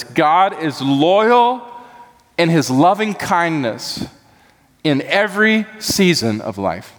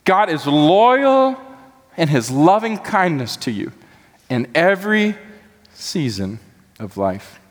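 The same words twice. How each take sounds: First: Drawn-out stress on loyal; measured, weighty phrasing on loyal; slow emphatic statement. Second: Climbing, stretched loyal with a dropping close; soaring emphatic repeat. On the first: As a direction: lean slowly into loyal and loving. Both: Shown as a demonstration. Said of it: "you could say it like this".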